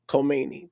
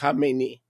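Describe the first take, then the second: First: The name begins with a 'Kho' sound. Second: The name begins with a 'Kha' sound. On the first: The speaker calls it wrong. "They Americans see a K and they go Khomeini" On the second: The speaker calls it right. "it's Khamenei"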